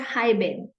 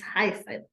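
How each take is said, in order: First: The middle consonant is a B sound. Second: The middle consonant is an S sound. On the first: The speaker calls it wrong. "It is not heiben" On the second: The speaker calls it right. "It's heißen"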